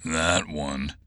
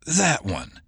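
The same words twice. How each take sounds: First: Low, softer grunt; a short gruff grunt. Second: Higher, cool confirmation; calmly seal his fate; confirming. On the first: Oates points Garcia out to Fetching with a grunt. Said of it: "Oates grunted". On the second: Fetching confirms her target to Oates before shooting. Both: Acted.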